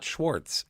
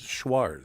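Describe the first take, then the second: First: A t sound is heard before the z. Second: No t sound is heard before the z. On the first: The speaker calls it wrong. "it's not Schwartz" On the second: The speaker calls it right. "it's Schwarz"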